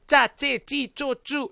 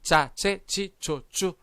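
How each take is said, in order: First: "짜찌찌쪼쭈" high, hard, tight unaspirated syllables; over-tense CH. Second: Second "짜째찌쪼쭈" eased, slightly released ch; relaxed CH. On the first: Teacher showing what is too strong, over-tense CH. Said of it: "이렇게 강한 된". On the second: Teacher showing just this much force, relaxed CH. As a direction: say "짜째찌쪼쭈" slowly with less tension and a slight burst. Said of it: "좀 힘을 풀고". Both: Shown as a demonstration.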